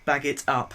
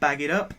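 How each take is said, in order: First: It is said in a non-American accent. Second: It is said in an American accent. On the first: The speaker calls it right. "as I should say, in my voice" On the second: The speaker calls it wrong. "American accent there"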